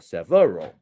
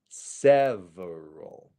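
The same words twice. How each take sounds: First: The stress is not on the first syllable. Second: The stress is on the first syllable. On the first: The speaker calls it wrong. "I'm not going several or several" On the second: The speaker calls it right. "the stress syllable is the sev"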